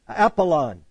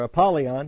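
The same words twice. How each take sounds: First: Apollon with no "y" sound, ending "-on"; alternate pronunciation. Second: Apollyon with a "y" glide, ending "-yon"; alternate pronunciation. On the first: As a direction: say Apollon, without a "y" glide. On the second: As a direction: say Apollyon, adding the "y" before "on". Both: Shown as a demonstration. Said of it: "however you want to say it".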